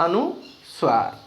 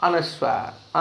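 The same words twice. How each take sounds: First: अनुस्वार stretched slowly, falling at the end; drawn-out demo. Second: Said in the usual way. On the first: Shown as a demonstration. Teacher drilling the term अनुस्वार for pupils, slowly. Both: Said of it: "क्या कहते हैं जी सही व्याकरण में".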